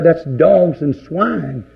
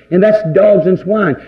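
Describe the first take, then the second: First: Drawn out, each word set down slowly; preacher slowing right down on the verdict; slow, weighty quote. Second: Said in the usual way. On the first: Retold or imitated. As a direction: let it sink in, slow and heavy. Jesus quoted slowly, then repeated.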